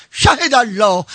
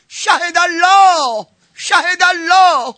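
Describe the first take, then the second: First: Said in the usual way. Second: High and very slow, stretching each word; slow chanted God-is-witness; drawn-out invocation. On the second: Acted. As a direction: intone it like a solemn oath.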